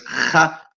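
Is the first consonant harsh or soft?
harsh. The first consonant is a harsh rasping sound. "porque es de Jaén"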